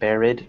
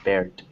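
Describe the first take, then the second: First: The ending is said as an extra syllable. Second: The ending is a plain d sound, one syllable. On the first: The speaker calls it wrong. "There's no extra sound in there" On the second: The speaker calls it right. "It's it's it's just the D"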